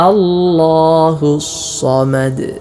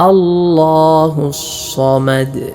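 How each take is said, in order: The two takes are said the same way.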